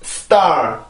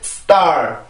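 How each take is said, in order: The two takes are said the same way.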